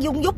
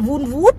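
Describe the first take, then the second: First: Both syllables begin with a D-like sound. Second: Both syllables begin with a V sound. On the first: The speaker uses the Southern way of saying it. "Tôi nói tiếng Nam mà" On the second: It is said the way the listener corrected it. "Vun vút chứ không phải là dung"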